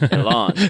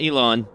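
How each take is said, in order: First: The second syllable sounds like 'an'. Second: The second syllable sounds like 'on'. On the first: The speaker calls it right. "Elan, E L A N" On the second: The speaker calls it wrong. "Not Elon, to be clear"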